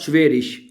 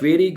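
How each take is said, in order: First: The word ends in a soft sh-like sound. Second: The word ends in a hard g sound. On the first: "बाज लोग इसको शीन की आवाज में पढ़ते हैं" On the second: "बाज इसको जी की आवाज में भी पढ़ लेते हैं"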